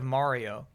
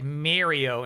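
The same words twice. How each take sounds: First: Mario is said with a standard accent. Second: Mario is said with a Long Island accent. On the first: This is the usual way to say it. The speaker calls it right. "instead of Mario" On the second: This is how the speaker's father said it. The speaker calls it wrong. "He said things like Mario"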